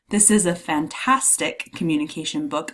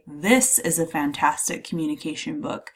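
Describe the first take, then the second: First: The stress falls on the word fantastic. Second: The stress falls on the word this. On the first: The quality of the book is highlighted. "I'm emphasizing the adjective, the descriptor" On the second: This one book in particular is meant. "I'm really emphasizing this one book in particular"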